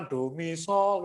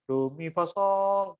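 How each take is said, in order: First: Sung as written. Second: Sung, slow do mi fa sol, creeping up to the SOL; sung with run-up. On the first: Choir coach showing the written notes, clean singing. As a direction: do mi sol sung cleanly, note to note. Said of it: "notnya cuma do mi sol". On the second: Choir coach showing a forbidden run-up, slow singing. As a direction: sing DO MI FA SOL, stepping through FA to reach SOL. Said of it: "nggak boleh gitu, ancang-ancang". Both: Shown as a demonstration.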